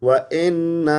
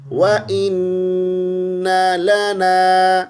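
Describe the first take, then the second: First: وَإِنَّ with an "e" sound; wrong version. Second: وَإِنَّ لَنَا slow and melodic, with a short noon; correct recitation. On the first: Teacher shows students the wrong وَإِنَّ. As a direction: show the "e" mistake in وَإِنَّ. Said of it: "اے کے ساتھ پڑھتے ہیں، اے نہیں پڑھنا". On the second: Teacher recites the correct وَإِنَّ لَنَا slowly. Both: Shown as a demonstration.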